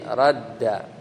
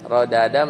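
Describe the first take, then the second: First: The two d sounds merge into one long d. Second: The two d sounds are separated by a vowel. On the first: This is the form actually used. "satunya disukun, satunya lagi harokat jadi radda" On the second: This is the underlying original form. "aslinya rodada"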